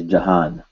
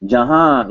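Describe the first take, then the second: First: "Jahan" ending on a fully sounded n; "Jahan" as spelt, with final n; dictionary pronunciation. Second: "Jahan" with the final n melted into a nasal ah; "Jahan" with a long nasal last vowel; nasalized ending. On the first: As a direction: close "Jahan" on a clear n. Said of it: "what you will find is Jahan". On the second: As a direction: end "Jahan" in the nose, no closed n. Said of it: "made the ah sound in your nose". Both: Shown as a demonstration.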